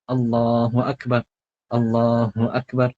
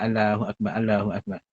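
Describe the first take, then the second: First: Allahu Akbar slow, with a clear h and akbar stressed; careful takbir, AKBAR stressed; correct takbir. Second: Allahu Akbar said softly, with the h in Allahu dropped; quiet, careless Allahu Akbar; wrong takbir. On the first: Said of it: "itu sebutan yang betulnya". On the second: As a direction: mumble Allahu Akbar without the h. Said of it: "Pun tak betul juga". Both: Shown as a demonstration.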